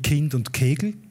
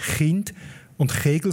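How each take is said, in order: First: It is said with a plain Swabian k. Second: It is said with a throaty Swiss ch.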